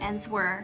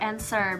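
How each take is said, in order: First: The w is pronounced as spelled. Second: The w is silent in the word. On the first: The speaker calls it wrong. "bukan answer" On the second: The speaker calls it right. "tulisannya A N S W E R, tapi bacanya tuh answer"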